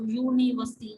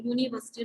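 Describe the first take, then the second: First: यूनिवर्सिटी spoken louder, opening clearly on a y sound; pronounced aloud. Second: Said in the usual way. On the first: Shown as a demonstration. Teacher pronouncing यूनिवर्सिटी so the class hears the y sound. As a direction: sound out यूनिवर्सिटी loudly with a y at the start. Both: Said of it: "उसको pronounce करके देखो".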